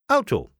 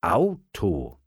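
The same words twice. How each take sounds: First: Quick, high-pitched call. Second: Drawn-out, thinking aloud; pondering. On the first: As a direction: fling the word out high as a challenge. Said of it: "Tante Lisa rief". (hell ausgerufen) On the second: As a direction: mull the word over, stretching it. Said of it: "Thomas dachte nach". (nachdenklich gedehnt) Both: A narrator's reading.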